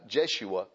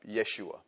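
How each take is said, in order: First: The name begins with a J sound. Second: The name begins with a Y sound. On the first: This is how it is said in English. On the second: This is how it is said in Hebrew.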